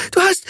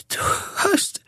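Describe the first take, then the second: First: High screamed du hast; shrieked du hast, breaking off; shrieking. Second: Breathy high whisper of du hast; drained whisper of du hast; whispered attempt. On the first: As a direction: screech du hast, high and loud. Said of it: "kreischte sie". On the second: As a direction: barely get du hast out, voiceless. Exhausted after attack, words fail. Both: A narrator's reading.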